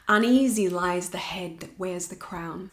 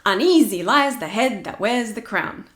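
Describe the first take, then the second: First: The beat is marked slightly, close to speech. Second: The beat is marked heavily, very exaggerated.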